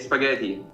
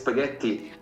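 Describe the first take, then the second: First: The T sound is short and light. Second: The T sound is held long and strong. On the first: This is how tourists say it. The speaker calls it wrong. "tourists say spaghetti" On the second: This is how Italians say it. The speaker calls it right. "No, it's spaghetti"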